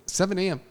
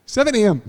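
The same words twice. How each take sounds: First: Said in the usual way. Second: Seven A M said higher and louder, hammering the hour; emphatic repeat. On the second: Retold or imitated. Telling friends how early she called, Seven A M said high and loud.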